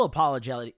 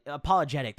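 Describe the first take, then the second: First: "apologetic" slurred, the middle syllables swallowed; garbled "apologetic" from a tired tongue; fumbled word. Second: Said in the usual way. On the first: Real, not acted. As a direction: trip over "apologetic" and mumble it out. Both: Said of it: "Pardon, I can't fucking talk".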